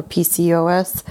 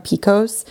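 First: "P C O S" said letter by letter; spelled out. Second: "pcos" pronounced as one word, PEE-kohs. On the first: Host offering the initials as an alternative, "P C O S" spelled out. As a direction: give each letter of "P C O S" its own name. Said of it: "if it's specifically called pcos". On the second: Host giving their own way to say the condition, "pcos" as one word. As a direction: say "pcos" like a two-syllable word, not as letters. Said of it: "that's how I say it". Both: Shown as a demonstration.

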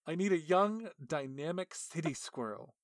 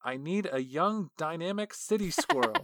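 First: Said in the usual way. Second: Higher, louder grand read of the letter; lightly hammed-up official; first take, grander. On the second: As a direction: announce it like a big idea. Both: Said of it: "the description that they gave to the artist".

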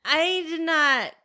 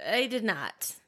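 First: Higher, very slow and drawn out; slow emphatic no. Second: Much softer, muttered repeat; quiet repeat. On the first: To friend about the movie, slow drawn-out denial. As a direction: drag the denial out. Answering about Hocus Pocus. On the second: To friend about the movie, softer trailing repeat. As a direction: say it again under your breath. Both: Real, not acted.

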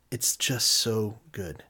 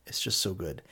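First: Slow savoring. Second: Hushed repeat. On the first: Savoring the sandwich, slowed. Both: Real, not acted.

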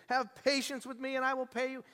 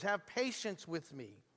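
First: Higher, imploring plea; pleading slave. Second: Quiet repeat. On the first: Retold or imitated. Fellow slave pleading with the forgiven slave. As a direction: beg for mercy on your knees. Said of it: "fell down and pleaded". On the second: Shown as a demonstration. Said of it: "Same exact words".

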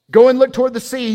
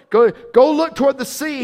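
First: Loud, fast order to the servant; urgent command. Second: High, loud repeated order; urgent command. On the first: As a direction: send him running. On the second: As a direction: push the servant out the door. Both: Acted. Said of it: "he told his servant".

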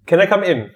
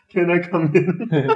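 First: Polite posh voice at the door. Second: Repeating it through laughter, slowly; slow, giggling echo of the posh voice; laughing imitation. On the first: Acted. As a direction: ask it sweetly, posh and polite. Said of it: "it's a very posh voice from the door". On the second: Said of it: "he straight away said that".

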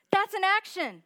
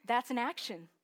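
First: That's an action thrown out higher and louder; emphatic preacher repeat; shouted emphasis. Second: Said in the usual way. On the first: Acted. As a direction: hammer the point home. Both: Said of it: "repeated for emphasis".

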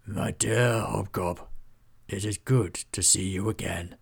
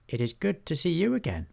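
First: Aged, scratched voice with authority; voice scratched by time. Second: High-pitched goblin voice; respectful goblin. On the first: A narrator's reading. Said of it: "His voice was scratched by time, but still carried power and authority". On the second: Acted. Hobgob returns his old lord's greeting, high respectful voice.

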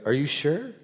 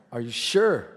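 First: "sure" lifted in a questioning rise; doubtful check. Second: "sure" falling at the end; re-ask it, bringing "sure" down; pointed repeat question. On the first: Driver double-checking with his pastor, doubtful rise on "sure". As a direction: ask it with "sure" going up at the end. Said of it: "the guy goes". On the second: Driver asking his pastor once more, pointed fall on "sure". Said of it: "let me say it again". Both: Retold or imitated.

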